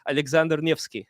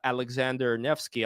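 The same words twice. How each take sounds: First: The name is said in a Russian accent. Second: The name is said in an English accent.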